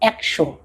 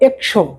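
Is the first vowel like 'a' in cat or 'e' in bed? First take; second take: 'a' in cat; 'e' in bed. First: The first vowel is open, like 'a' in cat. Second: The first vowel is closer, like 'e' in bed. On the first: The speaker calls it right. "সঠিক উচ্চারণ এটা বানানো অনুযায়ী হবে না" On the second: The speaker calls it wrong. "এখন যদি আমরা পড়াই একশো তাহলে কিন্তু হবে না"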